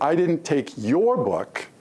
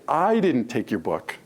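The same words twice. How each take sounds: First: The stress is on the word your. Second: The stress is on the word I.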